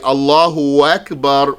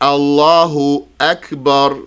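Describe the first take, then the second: First: The words run together with a w sound before Akbar. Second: The words are separated, with Akbar starting from the throat. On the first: The speaker calls it wrong. "So a person might say Allahu Akbar, wak, wak. So don't say that" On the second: The speaker calls it right. "It's Allahu Akbar"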